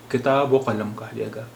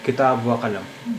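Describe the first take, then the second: First: کتاب و قلم with و said as "o"; pronunciation demo. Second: کتاب و قلم read slowly with و as "va"; slow demo reading. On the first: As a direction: join کتاب و قلم with a short "o". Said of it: "اس کا اچارن او ہو جاتا ہے". (و کو "او" بول کر کتاب و قلم) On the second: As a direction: spell out کتاب و قلم with a clear "va". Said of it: "اب یہاں وا کا مطلب ہے اور". (کتاب و قلم آہستہ، و کو "وا" پڑھ کر) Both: Shown as a demonstration.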